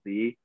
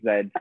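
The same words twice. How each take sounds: First: The letter is said as zee. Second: The letter is said as zed. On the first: This is the American way to say it. The speaker calls it wrong. "I do find myself saying Z, but that's not the correct way to say it" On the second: This is the British way to say it. The speaker calls it right. "because I'm British and we're meant to say Z"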